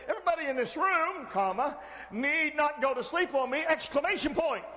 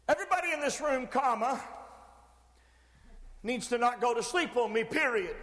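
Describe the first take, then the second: First: Quicker, livelier reading with punctuation spoken aloud; exclamatory reading. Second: Measured statement with the punctuation spoken aloud; reading out punctuation. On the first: Preacher shows the room the other version, exclamatory reading. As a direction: recite it building to an exclamation point. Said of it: "or I could say". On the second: Preacher demonstrates written sentence to the room, punctuation read aloud. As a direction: recite it as written, closing on a plain period. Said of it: "I don't talk like this". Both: Shown as a demonstration.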